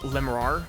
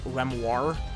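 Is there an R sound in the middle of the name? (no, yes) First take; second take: yes; no. First: The name has an R sound in the middle. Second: The name has no R sound in the middle. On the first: "literally just pronounced as it looks" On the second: "with, like, no R's, but, like, other than the second R"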